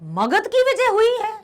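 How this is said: It is said as a surprised exclamation. Surprise is being expressed. "आश्चर्यचकित"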